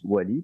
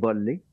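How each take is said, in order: First: The name begins with a W sound. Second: The name begins with a V sound. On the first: "se prononce Wally" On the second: "ils vont le prononcer d'une façon spéciale. Ils vont dire volley, OK, comme un volleyball"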